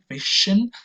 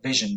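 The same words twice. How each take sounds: First: The middle consonant is voiceless, without vibration. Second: The middle consonant is voiced, with vibration. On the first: The speaker calls it wrong. "which is not vision" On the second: The speaker calls it right. "but vision. There is a little vibration there"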